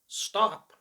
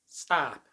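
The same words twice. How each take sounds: First: The vowel is rounded, British style. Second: The vowel is flat and long, American style. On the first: "the rounded vowel O" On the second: "becomes A, which is flat and long"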